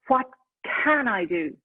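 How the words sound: The voice sounds energetic and motivated. The person is ready to take action. The speaker calls it right.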